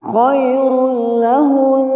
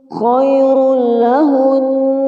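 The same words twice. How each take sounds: Both takes have the same delivery.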